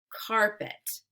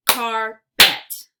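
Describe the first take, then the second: First: Said in the usual way. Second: Carpet as loud "car... pet"; split into syllables. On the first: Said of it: "swipe to say the whole word". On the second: Shown as a demonstration. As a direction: punch out both halves of Carpet separately. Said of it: "give you two parts to a word".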